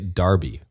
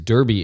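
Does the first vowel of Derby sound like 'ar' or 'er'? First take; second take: ar; er. First: It is said the English way, 'Dar-bee'. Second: It is said the North American way, 'Der-bee'.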